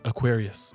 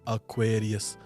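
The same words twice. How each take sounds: First: It is said quickly with the vowels run together. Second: It is said slowly with every vowel pronounced clearly. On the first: Listeners do not understand it. The speaker calls it wrong. "I would say like Aquarius or Pokari Sweat, and they're like, what?" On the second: Listeners understand it. The speaker calls it right. "you say like it slowly, saying all vowels properly"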